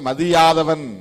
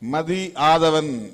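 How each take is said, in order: First: The two words are run together as one. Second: The two words are said as separate words. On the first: It means one who does not respect others. "சேர்த்து படித்தால் மதியாதவன் என்று பொருளாகிவிடுகிறது" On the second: It is a personal name. "மதி ஆதவன் என்பதை"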